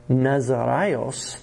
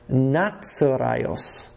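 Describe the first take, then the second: First: The middle consonant is a plain z sound. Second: The middle consonant is a ts sound. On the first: The speaker calls it wrong. "the word is not Nazaraios that Matthew's hoping you're going to think of" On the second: The speaker calls it right. "but Nazaraios"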